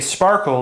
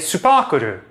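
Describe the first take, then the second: First: The word starts directly with an sp cluster. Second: Extra u vowels break up the consonant clusters.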